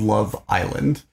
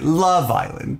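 First: The word 'Island' is stressed. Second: The word 'Love' is stressed. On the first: This is the usual, natural way of saying the name. "the inflection is so different than what would come naturally to me" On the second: This imitates how the show's announcer says the name. "The emphasis on the love always gets me"

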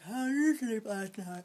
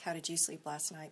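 First: It is said through a yawn. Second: It is said in a normal voice.

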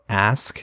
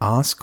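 First: The word is said in an American accent. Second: The word is said in a non-American accent.

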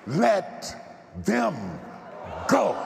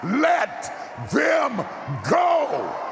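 First: It is said at normal, quieter volume. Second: It is said much louder.

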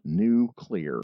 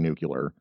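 First: The word ends in 'clear' sounds. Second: The word ends in 'cu-lar' sounds. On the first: The speaker calls it right. "two very easy words. New. Clear" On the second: The speaker calls it wrong. "some motherfucker kept saying nuclear. And I just see red"

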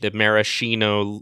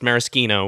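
First: The middle consonant is a soft, non-K sound. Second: The middle consonant is a hard K sound. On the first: This is how the cherries are named, a corrupted form. "the corruption of that and with the maraschino cherries are more of that kind of pronunciation" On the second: This is how the liqueur is named, as in Italian. "with the hard like CH or K sound as you would in Italian"

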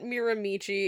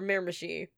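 First: It is said the misread way, following the spelling. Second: It is said the way locals say it. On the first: The speaker calls it wrong. "it's not Miramichi" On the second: The speaker calls it right. "or Miramichi, if you're a true local"

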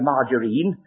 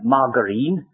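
First: The g is soft, like j. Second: The g is hard, like in go. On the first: This is the ordinary pronunciation. The speaker calls it right. "some pedants who won't say margarine" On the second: This is the pedantic pronunciation. The speaker calls it wrong. "they must say margarine"

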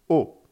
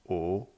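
First: It is said with the fourth tone. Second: It is said with the second tone.

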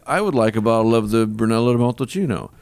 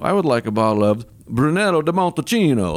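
First: It is said in a plain accent. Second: It is said in a put-on Italian accent.

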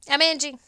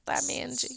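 First: The phrase is said too quickly. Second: The phrase is said more slowly. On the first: The speaker calls it wrong. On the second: The speaker calls it right.

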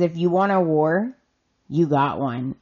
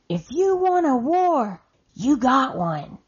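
First: It is said calmly, without yelling. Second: It is yelled loudly and angrily.

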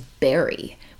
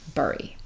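First: The vowel sounds like the one in 'berry'. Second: The vowel sounds like the one in 'burrow'. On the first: The speaker calls it right. "apparently the correct pronunciation of the word B-U-R-Y is bury" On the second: The speaker calls it wrong. "So I say it wrong"

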